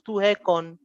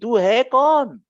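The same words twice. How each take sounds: First: It is said calmly, without emphasis. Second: It is shouted with strong emphasis.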